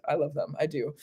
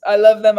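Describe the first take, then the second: First: Soft. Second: Emphatic. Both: Real, not acted. Repeating love for fairies.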